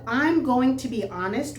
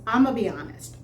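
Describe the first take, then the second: First: Each word of 'going to' is said fully. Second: 'I'm going to' is squeezed into 'I'ma'. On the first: This is the written, textbook form. "which is what you read in the book" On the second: This is a Southern regional way of speaking. "his pronunciation is I'ma be honest"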